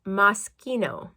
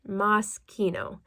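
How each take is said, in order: Both takes have the same delivery.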